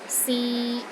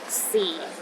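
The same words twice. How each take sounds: First: The pitch stays steady in the middle. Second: The pitch sits at the very bottom. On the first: To try. "a mid-tone. It's pronounced in the middle of your range and it is steady" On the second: Time. "The fourth tone is the lowest tone"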